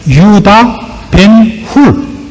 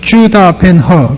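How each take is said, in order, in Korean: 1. y 소리로 시작하고 hul로 끝나요. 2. j 소리로 시작하고 her로 끝나요.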